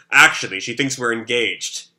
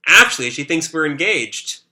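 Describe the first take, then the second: First: Voiced as Shiro. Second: Voiced as Yuri. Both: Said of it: "that's, uh, Shiro talking".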